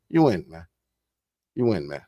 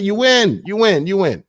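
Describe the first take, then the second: First: Dropped low and quiet; much lower, softer. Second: Said in the usual way. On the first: Real, not acted. Speaker signing off to viewers, low and soft. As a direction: let it sink low, softer. Repeated tag line fading out.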